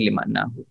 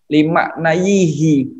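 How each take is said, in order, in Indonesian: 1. Bunyi 'a' panjang datang sebelum akhiran. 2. Suku kata 'yi' datang sebelum akhiran. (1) "iya-nya berubah menjadi alif"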